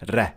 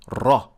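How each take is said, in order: First: The R is light, said with an empty mouth. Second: The R is heavy, said with a full mouth. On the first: "Ra becomes empty mouth, and therefore you pronounce it as Ra" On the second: "is always full mouth, so you pronounce it as Ra"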